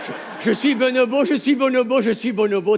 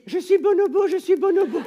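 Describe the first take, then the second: First: Louder group chant of je suis bonobo, laughing at the start. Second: High, loud mantra chant; chant je suis bonobo. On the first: A comedian leads the congress in the chant, loud and laughing. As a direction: lead the crowd in the chant. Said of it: "lâchez-vous". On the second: A comedian demonstrates the mantra for the audience, high silly chant. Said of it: "et vous dites". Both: Shown as a demonstration.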